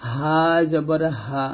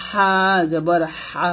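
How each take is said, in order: First: Easy, unsqueezed air on হা; natural-breath ha. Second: Squeezed airy হা from mid-throat; narrow-breath ha. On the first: Teacher contrasting the two letters, natural-breath ha. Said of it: "স্বাভাবিকভাবে বাতাস বের হবে". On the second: Teacher contrasting the two letters, narrow-breath ha. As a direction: push thin air through the throat on হা. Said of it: "এই হাটা চিকন বাতাস বের হবে". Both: Shown as a demonstration.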